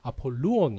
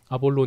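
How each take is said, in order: First: The name is said in its fuller original Greek form. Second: The name is said in a shortened Korean-adapted form. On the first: The speaker calls it right. "정확한 발음은 아폴루온 이래 그래요" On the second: The speaker calls it wrong. "우리 한국어 성경에서 이제 번역하면서 아볼론 이렇게 됐는데"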